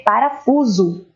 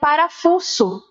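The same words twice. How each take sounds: First: The middle consonant is a buzzing z sound. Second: The middle consonant is a hissing s sound. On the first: The speaker calls it right. "é parafuso" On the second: The speaker calls it wrong. "Se eu for ler pensando no som da letra S, que é aquele que parece a cobra"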